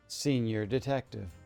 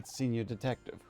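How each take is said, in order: First: It is said slowly and deliberately. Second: It is said at normal speed.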